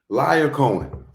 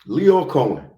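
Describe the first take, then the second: First: The first name sounds like Liar. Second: The first name sounds like Leo. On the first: The speaker calls it wrong. "Oh, I pronounced it wrong. I'm sorry. That's how the preacher called him" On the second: The speaker calls it right. "it is Leo"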